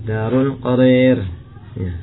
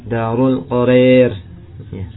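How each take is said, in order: No difference in how they are said.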